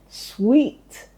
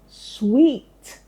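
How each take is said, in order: First: The word is said with a w, like sweet. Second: The same.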